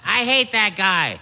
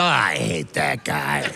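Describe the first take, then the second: First: "hate" leaned on, a bit higher and slowed; grouchy, drawn-out complaint; mildly imitated grumpy dad; dad grumbling. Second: Low, slow grumble of "I hate that guy"; deep, slow grouchy dad; dad grumbling. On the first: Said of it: "My dad was like". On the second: Retold or imitated. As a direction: drop the voice way down and grumble. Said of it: "Somebody would come in and go".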